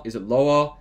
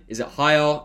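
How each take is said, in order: First: Slightly dropped pitch on LOWER. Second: Slightly raised pitch on HIGHER. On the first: Coach asking viewers about their natural tone, slightly lower. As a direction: let the word "lower" sink a little. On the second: Coach asking viewers about their natural tone, slightly higher. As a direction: lift the word "higher" a little. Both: Shown as a demonstration.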